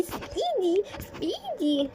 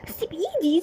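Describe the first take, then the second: First: Much higher desperate cry; girl screaming at the man holding her arm; shrill panicked plea. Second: High, loud cry to let go; girl shrieking at the man dragging her; panicked struggle. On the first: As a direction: scream it as she pulls away. Girl dragged away. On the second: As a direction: fight free in a panic. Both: Acted.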